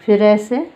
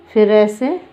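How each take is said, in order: Both takes have the same delivery.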